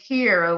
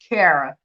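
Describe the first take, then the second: First: The first vowel sounds like 'ee'. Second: The first vowel sounds like 'air'. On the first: The speaker calls it wrong. "which people a lot of people do call me that" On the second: The speaker calls it right. "but it's Kara"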